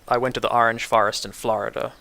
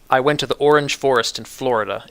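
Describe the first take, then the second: First: The vowels before R are an open ah. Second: The vowels before R are closed, not open. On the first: This is how a native New Yorker says it. "I have all of the the the more open vowels, the ah sound" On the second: This is how most Americans say it. "They would say"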